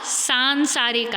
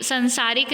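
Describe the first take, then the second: First: सांसारिक said as "saan-saarik"; long nasal "saan" opening सांसारिक. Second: संसारिक said as "san-saarik"; mispronounced short "san" opening संसारिक; short first vowel. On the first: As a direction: stretch सां in सांसारिक. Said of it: "आ की मात्रा आएगी". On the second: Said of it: "संसारिक नहीं आएगा". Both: Shown as a demonstration.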